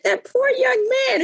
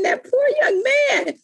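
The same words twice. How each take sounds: First: A hint of the mother, pitched higher; imitating mother. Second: Mother's pity, higher, slow and crying out; mother's lament. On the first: Mother pitying the boy, lightly voiced, higher. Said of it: "She said". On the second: Retold or imitated. Mother repeating her pity, slower, with a crying shout. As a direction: stretch it out like a pained lament. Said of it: "she kept saying".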